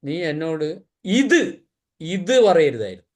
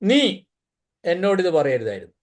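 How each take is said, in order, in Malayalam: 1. ഊന്നൽ ഇത് എന്ന വാക്കിലാണ്. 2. ഊന്നൽ നീ എന്ന വാക്കിലാണ്. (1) "ഇത് പറഞ്ഞതാ പ്രശ്നം" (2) "നീ പറഞ്ഞുകൊണ്ടാ പ്രശ്നം"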